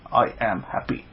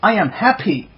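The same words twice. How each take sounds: First: It is said in a sad, flat way. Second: It is said with a happy, warm feeling.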